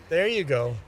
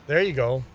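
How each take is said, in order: The two takes are said the same way.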